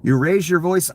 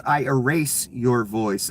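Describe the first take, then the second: First: Mimicking the threat. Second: Slow, deliberate imitation of the threat; I erase your voice, drawn out like a warning; slow menacing quote. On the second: Quoting the ICE agent's threat to the filmer, slow menacing imitation. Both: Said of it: "he sounded Latin to me".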